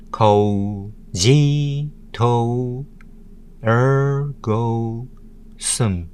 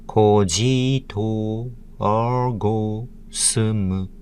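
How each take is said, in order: First: Each syllable said apart with pauses; Ko, ji, to, er, go, sum spoken as separate beats. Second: Ko ji to er go sum as quick grouped kana beats. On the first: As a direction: count out Ko ji to er go sum one beat at a time. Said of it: "Thirteen letters, six syllables". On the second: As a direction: tap out each kana. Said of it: "In nine Japanese kana letters and syllables". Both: Shown as a demonstration.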